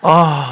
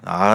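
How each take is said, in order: First: It is said with strong exclamatory feeling. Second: It is said flatly, without exclamation. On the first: The speaker calls it right. "감탄사를 넣어주세요 ... 이렇게 해줘야지" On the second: The speaker calls it wrong. "이렇게 하면 안 돼요"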